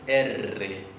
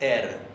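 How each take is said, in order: First: The R is a rolled multiple trill. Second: The R is a single quick tap. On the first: "pero la vibrante múltiple es" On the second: "La vibrante simple es"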